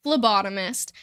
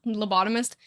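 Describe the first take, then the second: First: "Phlebotomist." said firmly, starting with an f sound; "Phlebotomist." corrected with a flat end; corrected word. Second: "lobotomist?" said by mistake with a questioning rise; saying "lobotomist?" for phlebotomist, unsure; wrong word. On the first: Correcting herself to chat, saying "Phlebotomist." firmly. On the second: Fumbling the word "lobotomist?" to chat, puzzled. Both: Shown as a demonstration.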